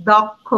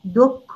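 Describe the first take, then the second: First: দক্ষ read as spelled, "dɔkkho"; teacher reading দক্ষ as written. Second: দক্ষ said "dokkho" with a rounded o; teacher showing how দক্ষ is really said; spoken pronunciation. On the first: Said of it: "আমি লিখেছি". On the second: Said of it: "আমি উচ্চারণ করি". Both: Shown as a demonstration.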